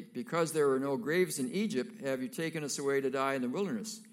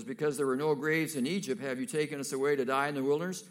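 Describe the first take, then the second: First: Louder, bitter grumbling, quicker at the end; complaining Israelites. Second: Louder, fast, accusing; heated complaint. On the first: Frightened Israelites blaming Moses at the sea, bitter. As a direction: blame Moses with a sneer. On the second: Israelites hemmed in by Pharaoh, hurling blame at Moses. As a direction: really lay it on Moses. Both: Acted.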